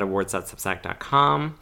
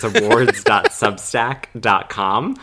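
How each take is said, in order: First: It is said fast. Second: It is said slowly.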